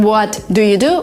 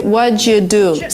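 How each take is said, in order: First: Each word is said separately, without blending. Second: The words blend together with a ch sound. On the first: "Instead of saying" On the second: "we kind of invent a new sound here"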